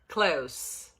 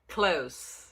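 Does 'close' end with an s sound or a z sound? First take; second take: s; s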